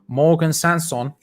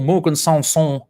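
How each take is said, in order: First: The name is said in a plain, ordinary way. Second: The name is said in an imitated style.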